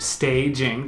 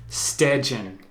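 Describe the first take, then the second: First: The vowel is a plain A sound. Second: The vowel is pronounced like an E sound. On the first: "instead of staging, the way we would say it" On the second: "she says staging. Staging with an with an E"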